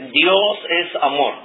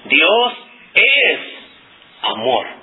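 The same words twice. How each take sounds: First: No word is given extra stress. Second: The word es is stressed. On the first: "no estoy enfatizando en ninguna palabra" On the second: "si yo quiero enfatizar la palabra es o el verbo es"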